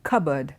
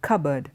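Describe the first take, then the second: The two takes are said the same way.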